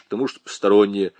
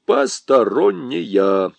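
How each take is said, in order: First: Said in the usual way. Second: Slow «посторонняя», each syllable set apart; emphatic drilling. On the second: A narrator's reading. Lieutenant drums «посторонняя» into Nyura, slow emphatic syllables. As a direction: hammer out «посторонняя» slowly, syllable by syllable. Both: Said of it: "И запомни это как следует".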